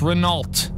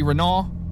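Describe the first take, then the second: First: The final T sound is clearly pronounced. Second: The final T sound is left silent.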